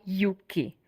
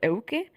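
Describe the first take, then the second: First: The name begins with a 'yoo' sound. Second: The name begins with an 'eh-oo' glide. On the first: This is the English reading of the name. "You know how the E U in Europe, it's pronounced U? So that's why Yuki" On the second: This is the Czech reading of the name. "In my own language, it's pronounced as Euki"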